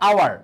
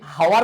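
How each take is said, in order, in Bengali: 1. শব্দটি স্বরবর্ণ দিয়ে শুরু, h ধ্বনি নেই। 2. শব্দটি স্পষ্ট h ধ্বনি দিয়ে শুরু। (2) "এটা কি হাওয়ার বলি"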